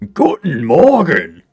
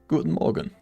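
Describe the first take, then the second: First: It is said in a harsh, angry way. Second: It is said in a plain, neutral way.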